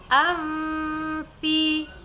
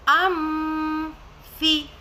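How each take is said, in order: First: The nasal is hidden, moving straight into f. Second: The n is sounded as m before f. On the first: The speaker calls it right. "Kita langsung masuk ke mahraj huruf fa" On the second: The speaker calls it wrong. "memberikan suara mim di situ"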